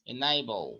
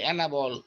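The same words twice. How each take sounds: First: Enable with a long "ay": "e-NAY-bl"; correct pronunciation. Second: Enable said "e-na-bol" with a flat middle; enable, Bengali-style, without the "ay"; common mispronunciation. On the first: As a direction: stretch enable's middle into "ei". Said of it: "এটা এই হয়ে যাবে". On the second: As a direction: enable as students usually say it. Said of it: "আমরা বলি enable". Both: Shown as a demonstration.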